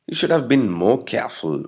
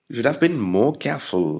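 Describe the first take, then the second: The two takes are said the same way.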